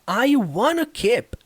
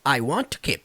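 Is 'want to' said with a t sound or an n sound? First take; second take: n sound; t sound. First: 'Want to' becomes 'wanna' with an n sound. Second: 'Want to' is linked with a t sound. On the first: "às vezes tem som de N" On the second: "fica junto. Uma coisa só"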